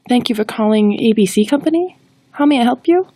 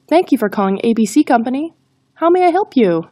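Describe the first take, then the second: First: It sounds hesitant and unsure. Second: It sounds friendly and confident. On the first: The speaker calls it wrong. "If we are unsure of the greeting, we won't sound confident" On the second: The speaker calls it right. "focus on being friendly and confident"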